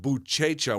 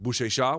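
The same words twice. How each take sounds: First: The middle consonant is a CH sound. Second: The middle consonant is an SH sound.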